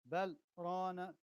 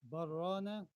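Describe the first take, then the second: First: A tiny stop without breath separates the words. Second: The l merges into the r with no stop. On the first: The intended words of the verse are kept. The speaker calls it right. "This one you stop, but you don't take breath" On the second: It becomes a different word with another meaning. The speaker calls it wrong. "there's a rule here to make lam and ra together, and it will be like this"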